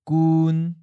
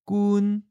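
First: The syllable is said in the seventh tone. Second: The syllable is said in the first tone. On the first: "That's seventh tone" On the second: "First tone"

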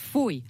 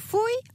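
First: The word is said at a lower pitch. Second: The word is said at a higher pitch. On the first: The speaker calls it right. "foei moet lager. En eigenlijk is het foei" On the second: The speaker calls it wrong. "jij doet nu foei"

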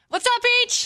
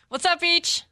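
First: It is said with more energy. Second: It is said with little energy.

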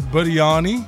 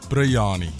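First: The word begins with a 'bir' sound. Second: The word begins with a 'brey' sound.

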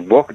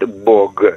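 First: The final consonant is devoiced. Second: The final consonant is voiced. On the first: "говорят «бог» там" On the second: "не говорят «бог»"

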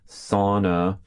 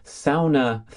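First: It is pronounced in a lazy American accent. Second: It is pronounced the Finnish way. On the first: "as they say in lazy American accent" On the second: "as they say in Finland"

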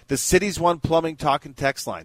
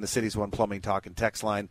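First: It is said at a slower pace. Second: It is said at a quicker pace.

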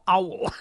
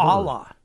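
First: The name is said like the bird 'owl'. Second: The name is said like 'ah-la'. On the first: The speaker calls it right. "Like the bird owl" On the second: The speaker calls it wrong. "No, Brad, okay"

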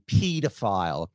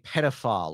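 First: It is said with a British pronunciation. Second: It is said with an American pronunciation.

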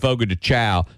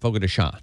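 First: The last word sounds like 'chow'. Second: The last word sounds like 'shown'. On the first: The speaker calls it wrong. "I decided to go to Fogo de Chow. They go, no" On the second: The speaker calls it right. "no, it's Sean"

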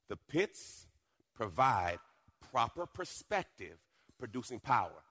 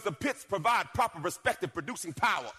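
First: It is said slowly and deliberately. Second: It is said at normal, quicker pace.

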